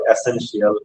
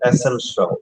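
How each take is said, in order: First: The ending sounds like 'shiyal'. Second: The ending sounds like 'shal'. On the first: The speaker calls it wrong. "টি আই এ এল থাকলে হবে শিয়াল" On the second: The speaker calls it right. "এটা শিয়াল না, এটা হচ্ছে শল"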